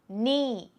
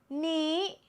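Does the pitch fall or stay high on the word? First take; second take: falls; high. First: The pitch falls across the word. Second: The pitch stays high across the word. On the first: "the word knee with a falling tone" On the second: "Knee is a high tone"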